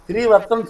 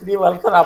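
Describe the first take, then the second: First: The middle cluster is pronounced with a 'ts' sound. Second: The middle cluster is pronounced with an 'ls' sound. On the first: This is the original form of the name. "அவர் பேரு ஸ்ரீவத்சன் தான்" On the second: This is a regional form of the name. "அப்படி தா லா ஆகும்"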